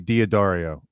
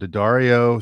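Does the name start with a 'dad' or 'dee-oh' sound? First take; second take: dee-oh; dad. First: The name starts with a 'dee-oh' sound. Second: The name starts with a short 'dad' sound. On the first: The speaker calls it wrong. "I usually say Diodario" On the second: The speaker calls it right. "You pronounced it correctly"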